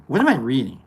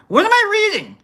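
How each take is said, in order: First: Said in the usual way. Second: High-pitched, comic bewilderment; exasperated squeaky question; baffled squeal. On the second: Real, not acted. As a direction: shoot up into falsetto disbelief. Same question repeated in baffled squeal.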